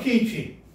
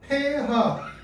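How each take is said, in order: First: The letters are read with English letter names. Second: The letters are read with German letter names.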